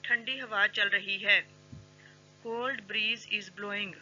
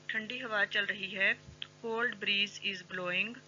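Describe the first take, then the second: No difference in how they are said.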